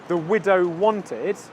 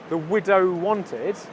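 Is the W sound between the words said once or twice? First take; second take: once; once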